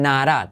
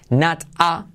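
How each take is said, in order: First: The t is said like a quick r. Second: The t is said as a clear t.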